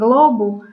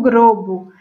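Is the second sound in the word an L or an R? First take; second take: L; R. First: The cluster after the first consonant uses L. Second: The cluster after the first consonant uses R. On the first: "ao invés de falar em globo" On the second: "a troca do L pelo R"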